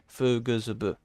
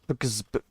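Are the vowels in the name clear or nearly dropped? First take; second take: clear; dropped. First: The name is said with clear vowels. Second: The name is said with vowels nearly dropped. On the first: "I'm using a vowel. I'm saying E" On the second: "to use as little vowel as possible"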